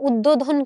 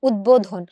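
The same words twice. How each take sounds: First: The b sound after the d is dropped. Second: The b sound after the d is pronounced. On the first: The speaker calls it wrong. "এরকম করে করে উদ্বোধন কিন্তু আমরা বলি না" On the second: The speaker calls it right. "বয়ের উচ্চারণটা বহাল আছে"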